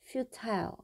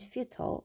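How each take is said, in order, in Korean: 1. 마지막 음절은 'tile'과 운이 맞아요. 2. 마지막 음절은 'tul'처럼 약하게 줄어들어요. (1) "영국식 발음은요. ... 이 I가 I처럼 발음이 돼요" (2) "미국식 발음은"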